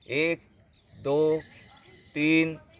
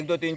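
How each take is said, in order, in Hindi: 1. संख्याएँ रुक-रुक कर धीरे-धीरे गिनी जाती हैं। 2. संख्याएँ बिना रुके तेज़ी से गिनी जाती हैं। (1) "इस तरह से रुक करके" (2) "ऐसे नहीं"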